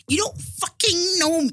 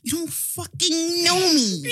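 First: High, loud, slow sassy quote; hammed-up attitude, neck roll included; sassy diva quote. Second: High, slow, laughing sassy line; quote through laughter. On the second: Retold or imitated. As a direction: say it while cracking up. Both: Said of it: "Just even did her neck".

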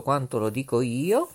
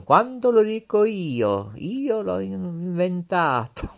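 First: Said in the usual way. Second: Light TV host impression, higher; Pippo Baudo. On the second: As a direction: quote the showman grandly. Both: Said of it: "Diceva Pippo Baudo".

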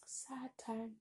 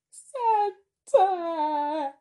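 First: Whispered, wistful aside; hushed. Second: Loud, high hammed-up wail; mock crying. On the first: Real, not acted. Looking back on a friend leaving, whispered sadly. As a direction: let it fade to a whisper. Repeats sad time, dropping to whisper. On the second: Exaggerating grief over a friend leaving, mock crying. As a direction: wail it out in fake sobs, stretching the words. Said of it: "I'm not sure if I'm crying".

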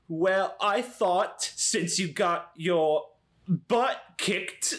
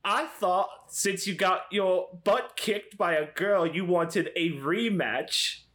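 First: Slow, higher, badly faked voice; voice within a voice. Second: Higher, drawn-out taunt in a put-on voice; Draco. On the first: Player voices Cody imitating Eloise, slow badly faked voice. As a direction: pick through a shaky impersonation word by word. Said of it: "trying to do one voice doing another voice". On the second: Disguised Cody taunts the boy about a rematch, Draco-like voice. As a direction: goad him in a badly faked snobbish schoolboy voice. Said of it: "it's just turning into Draco now".

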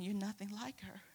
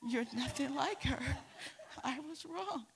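First: Said in the usual way. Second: Quoting through laughter; laughing. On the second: Retold or imitated. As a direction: laugh while you repeat it. Teacher repeats apology, teller laughing.

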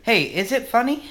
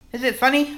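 First: Squeaky high voice asking; mock high-pitched query; high mock question. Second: Very high squeaky question; even higher squeak. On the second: Acted.

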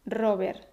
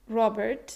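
First: Robert as RO-ber, Spanish R, no final t; Spanish pronunciation. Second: Robert said the English way, final t kept; original English pronunciation. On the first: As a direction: drop the t of Robert and roll into RO-ber. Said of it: "eliminar el sonido de la T final". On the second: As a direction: say Robert as an English name, sounding the t. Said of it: "puedes pronunciarlo con la R española". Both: Shown as a demonstration.

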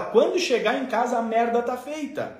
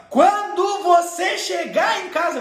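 First: Said in the usual way. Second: High, drawn-out parental warning; threatening mother. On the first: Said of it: "Quando ela fala". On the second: Acted. Mother warning her small child, slow high threat. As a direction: stretch the threat out slowly, pitched high. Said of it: "quando a mãe falava".

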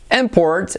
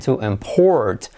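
First: IMport, slow, IM high; stress on first syllable. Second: To imPORT, slow, falling on PORT; stress on second syllable. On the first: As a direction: punch IM at the start of import. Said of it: "el nombre". (import lento, con acento en la primera sílaba) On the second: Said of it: "and to import". (import lento, con acento en la segunda sílaba) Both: Shown as a demonstration.

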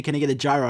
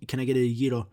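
First: "gyro" said JAI-roh; Americanized pronunciation. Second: "gyro" said YEE-ro, tapped r; Greek-style pronunciation. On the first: Showing how he orders at a place, "gyro" Americanized as JAI-roh. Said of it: "I say gyro". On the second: Showing what he avoids saying when ordering, "gyro" as Greek YEE-ro. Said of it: "I don't say". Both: Shown as a demonstration.

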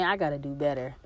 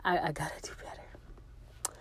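First: Said in the usual way. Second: Soft, whispered self-reproach. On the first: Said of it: "self-reproach". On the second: Real, not acted. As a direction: say it to yourself under your breath. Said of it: "self-reproach repeated".

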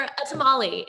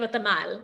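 First: Tamale said the English way, ending in "-lee"; Americanized pronunciation. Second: Tamal said the Spanish way, stressed on the last syllable; Spanish pronunciation. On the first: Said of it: "I have to change the way I say things". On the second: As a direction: say "tamal" with authentic Spanish sounds. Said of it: "the way I would say it in Spanish". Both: Shown as a demonstration.

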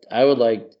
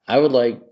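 No difference in how they are said.

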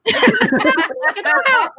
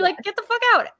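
First: Squealed high through laughter, slowly; laughing high squeal. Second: High-pitched repeat. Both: Retold or imitated.

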